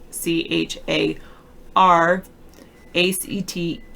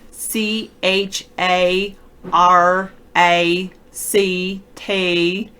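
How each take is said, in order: First: The letters are spoken in a General American accent. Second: The letters are spoken in a Southern American accent.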